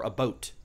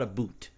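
First: "a boat" for about, with an oh vowel; soft, low demo of "a boat"; Canadian about. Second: "a boot" for about, with an oo vowel; soft, low demo of "a boot"; wrong Canadian about. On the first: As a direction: rhyme "a boat" with coat. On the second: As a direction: rhyme "a boot" with suit. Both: Shown as a demonstration. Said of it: "not a boot".

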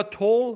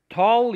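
First: "تول" with a rounded "o" vowel; rounded vowel in tall. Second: "تال" with an open "ah" vowel; American vowel in tall. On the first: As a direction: say tall as "tol". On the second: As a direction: say tall as "tahl". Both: Shown as a demonstration. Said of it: "تال یا تول".

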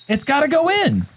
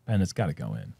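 First: High, pleading cry at the putt; will the ball in with a raised voice; exasperated high-pitched outburst; desperate exclamation. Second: Low, soft muttered hope; hushed, downcast urging; quiet plea. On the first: Crying out as putt must drop. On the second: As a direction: plead under your breath for the putt. Muttered plea over the putt. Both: Real, not acted.

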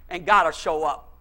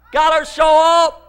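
First: Said in the usual way. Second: Higher, louder repeated cry; preacher's shout. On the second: Real, not acted. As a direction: shout it out to the congregation.

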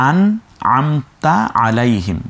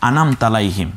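First: আন, আমতা, আলাইহিম slowly, as separate words; correct reading. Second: আনাম তালাইহিম run together, the break before তালাইহিম; common misreading. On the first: Shown as a demonstration. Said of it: "আনাম তালাইহিম না". (আন আমতা আলাইহিম শুদ্ধভাবে, ধীরে আলাদা করে) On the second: Retold or imitated. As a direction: imitate the wrong join in আনাম তালাইহিম, quickly without pauses. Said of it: "অনেকে পড়তে শুনি যে". (আনাম তালাইহিম ভুলভাবে জুড়ে পড়া)

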